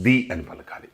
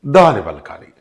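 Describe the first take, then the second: First: ది with a long ee, for vowel sounds; "the" as "dee". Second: ద pronounced "duh", for consonant sounds. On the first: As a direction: say ది as dee, softer and lower. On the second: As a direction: say ద as duh with an open vowel. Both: Shown as a demonstration.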